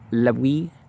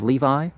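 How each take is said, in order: First: The middle consonant is a W sound. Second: The middle consonant is a V sound. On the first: "in Aramea, it's a W sound" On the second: "rather than a V sound"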